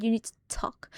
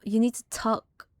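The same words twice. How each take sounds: First: Whisper. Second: Said in the usual way. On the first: Retold or imitated. Strange lady's warning retold.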